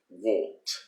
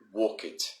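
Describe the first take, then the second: First: The ending is a short t, one syllable. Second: The ending is an extra syllable, like 'walk-id'. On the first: The speaker calls it right. "the correct way, if you want to sound like a native" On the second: The speaker calls it wrong. "They say walk it"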